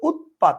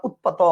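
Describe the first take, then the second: First: "উৎপাত" as ut-pat, stopping on the final t; "উৎপাত" in two clear syllables, ut and pat; correct pronunciation. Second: "উৎপাত" with an added final o, as ut-pa-to; "উৎপাত" mispronounced with the last ত voiced as "to"; wrong pronunciation. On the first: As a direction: close "উৎপাত" on a bare t with no vowel after. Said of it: "আপনি বলেন উৎপাত". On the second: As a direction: end "উৎপাত" on an open o vowel after the last t. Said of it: "আপনি বলেন না". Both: Shown as a demonstration.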